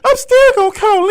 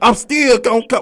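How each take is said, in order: First: It is said in a high, imitated voice. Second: It is said in the speaker's own normal voice.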